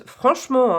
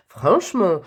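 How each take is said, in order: First: Franchement in a playful mock Swiss accent, pitched higher and louder. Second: Said in the usual way. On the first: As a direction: throw in a quick joke Swiss accent on Franchement. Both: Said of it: "c'est quoi cet accent suisse?".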